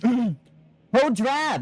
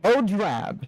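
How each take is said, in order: First: It is said in a put-on character voice. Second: It is said in the speaker's normal voice.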